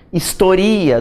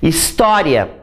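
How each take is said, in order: First: The stress is on the third syllable. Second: The stress is on the second syllable. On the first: It is a form of the verb to chronicle. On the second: It is the noun for history.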